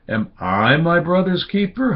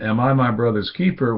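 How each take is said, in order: First: It sounds like a reproachful question blaming God. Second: It sounds like a dismissive, defiant retort.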